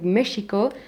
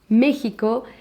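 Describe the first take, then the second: First: The x is said as an 'sh' sound. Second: The x is said as a throaty 'h' sound. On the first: This is how it was said long ago. "this is not the pronunciation that they had at that time, but because it was more like Mexico" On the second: This is how it is said today. "now we have Mexico. We write it with X, but the pronunciation is with J"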